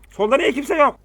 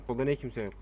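First: Shouting. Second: Said in the usual way. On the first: Real, not acted. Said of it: "plain take just before". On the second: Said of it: "repeat shouted right after".

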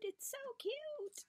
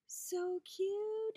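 First: Very high, slow whisper; delighted whisper. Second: High, loud burst of delight; excited squeal. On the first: Vlogger admiring a zipper charm, high slow whisper. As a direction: drop to an awed whisper. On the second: Vlogger spotting a zipper charm, loud high squeal. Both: Real, not acted. Squeal then whisper repeat.

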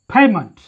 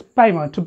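First: "payment" with a strong popped P; aspirated Western P. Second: "payment" with no puff of air on the P; unaspirated local P. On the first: Teacher shows Western pronunciation, aspirated P in "payment". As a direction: release a puff of air on the P of "payment". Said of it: "because it is aspirated". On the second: Teacher shows how we generally say it, unaspirated P in "payment". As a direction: say "payment" with an unpopped P. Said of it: "Generally, we pronounce it as". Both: Shown as a demonstration.

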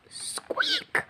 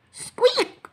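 First: Said in the usual way. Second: Very high little mouse squeak; a small, high squeaking sound; tiny squeak. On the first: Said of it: "squeak went a voice". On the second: Acted. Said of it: "squeak went a voice, a very tiny voice".

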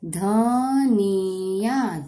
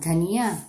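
First: धनिया stretched out very slowly; sounding out slowly. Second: Said in the usual way. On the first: Shown as a demonstration. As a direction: draw out धनिया syllable by syllable.

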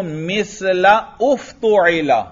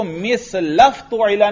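First: "मिसला उफ़्तुइला" slowly, the hamza kept as a separate "u" after "la"; hamza pronounced. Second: "मिसलफ़्तुइला" run together, "la" gliding straight into "f"; hamza dropped. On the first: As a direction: break before "उफ़्तुइला" and sound its first vowel clearly. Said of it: "इसको मिसलफ़्तुइला नहीं पढ़ना, यहां हमजा को नहीं गिराना". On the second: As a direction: join it as one word with no "u" before the "f". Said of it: "नहीं पढ़ना, यहां हमजा को नहीं गिराना". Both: Shown as a demonstration.

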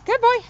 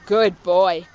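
First: High, bright good-dog praise. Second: Deep, low praise for the dog. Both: Real, not acted.

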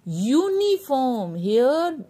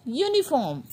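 First: UNIFORM very slowly, stretching the opening YOO; drawn-out sound demo. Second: Said in the usual way. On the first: Shown as a demonstration. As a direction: stretch Uniform syllable by syllable so the long U stands out. (Uniform को बहुत खींचकर बोलते हुए) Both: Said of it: "Just notice the sound".

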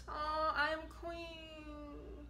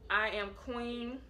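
First: Slow, soft and higher, close to tears; emotional. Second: Said in the usual way. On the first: Real, not acted. Repeating her late aunt's book title, moved to tears. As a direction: let the words catch as grief rises. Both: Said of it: "Feel a little emotional".

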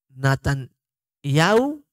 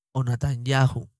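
First: NATANYAHU ending "-YAU", no H, drawn out slowly; silent H. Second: NATANYAHU ending "-YA-ju", with a very soft J; soft J sound. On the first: Teacher showing how some say Natanyahu, silent H. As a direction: run the last vowels of "Natanyahu" together as "ya-u". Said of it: "no lo pronuncian". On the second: Teacher giving the alternative Natanyahu, soft J. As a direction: put a gentle Spanish J before the final U of "Natanyahu". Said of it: "es una J muy suave". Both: Shown as a demonstration.

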